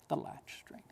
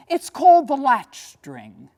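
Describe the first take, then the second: First: Unvoiced hush of The Latch String; whispered title. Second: Louder and slow, weighing each word; grand announcement. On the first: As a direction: breathe the title as a secret. Repeats title hushed. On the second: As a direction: announce the title boldly. Announces painting title. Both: Shown as a demonstration.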